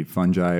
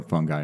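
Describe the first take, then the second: First: "fungi" said as FUN-jai, soft g; soft-g variant. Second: "fungi" said as FUNG-guy, hard g; hard-g variant. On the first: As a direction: say "fungi" with a j sound, rhyming with eye. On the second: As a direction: say "fungi" with a hard g, rhyming with eye. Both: Shown as a demonstration. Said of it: "are both acceptable".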